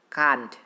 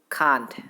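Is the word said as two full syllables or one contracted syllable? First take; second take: one syllable; one syllable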